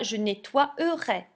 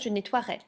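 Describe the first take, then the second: First: The e before the ending is pronounced aloud. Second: The e before the ending is left silent. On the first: The speaker calls it wrong. "je ne dirai pas" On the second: The speaker calls it right. "Je dirais"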